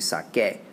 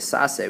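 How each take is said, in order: First: The middle consonant is a k sound. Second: The middle consonant is an s sound. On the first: The speaker calls it right. "we say sake" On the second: The speaker calls it wrong. "we don't say sase"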